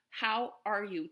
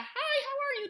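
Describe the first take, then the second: First: It sounds like a warm, sincere question. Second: It sounds like a quick, casual greeting.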